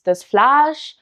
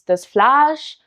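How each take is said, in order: First: The vowel is a long a. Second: The same.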